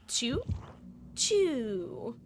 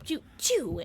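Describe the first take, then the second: First: The two sounds follow each other slowly. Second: The two sounds follow each other quickly. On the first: The hatchet is released later. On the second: The hatchet is released sooner.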